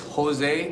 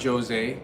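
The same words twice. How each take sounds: First: The name is said with Spanish sounds. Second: The name is said with English sounds. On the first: The speaker calls it right. "it's Jose" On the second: The speaker calls it wrong. "not Jose"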